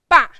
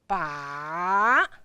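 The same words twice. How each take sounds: First: The syllable is short, sharp and rigid. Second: The pitch goes down and then up. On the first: "short and then sharp and then a little bit rigid" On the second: "if ba sound gonna be the third tone, that is ba"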